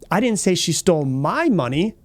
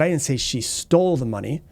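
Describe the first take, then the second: First: The stress falls on the word my. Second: The stress falls on the word stole. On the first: She stole someone else's money. "It could have been somebody else's money that she stole" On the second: She got the money some other way. "borrowed it, maybe she found it"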